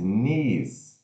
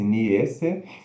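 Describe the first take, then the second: First: It has a long ee vowel sound. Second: It is read the way it is spelled. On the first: The speaker calls it right. "se pronuncia N e longo S" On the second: The speaker calls it wrong. "Como se fosse niece"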